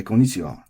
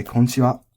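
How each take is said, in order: First: "Konnichiwa" as an American learner says it; American accent, Japanese pitch pattern missing. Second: Casual native "Konnichiwa" shortened to kon-chi-wa; Konnichiwa contracted, flat, no ni; dropped ni. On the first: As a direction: traditional American-sounding Konnichiwa with one n. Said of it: "if we don't know the accent". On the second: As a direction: skip the ni in Konnichiwa. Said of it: "gonna drop the "ni". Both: Shown as a demonstration.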